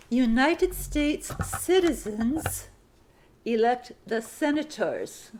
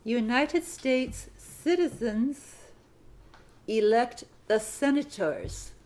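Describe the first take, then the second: First: "United" drawn out, slow phrasing; slow dictation, word by word. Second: "United" again drawn out slowly; slow dictation repeat. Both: Shown as a demonstration. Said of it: "Sentence fifty-three".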